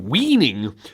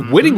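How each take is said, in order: First: The first vowel is long, as in 'wean'. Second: The first vowel is short, as in 'win'. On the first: The speaker calls it wrong. "he said weaning" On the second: The speaker calls it right. "he didn't even say winning right"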